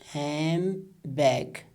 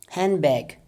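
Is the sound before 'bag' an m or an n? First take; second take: m; n. First: The d is dropped and n becomes m. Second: The d is dropped, leaving an n sound. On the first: "we change it into mm sound" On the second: "there is no da sound"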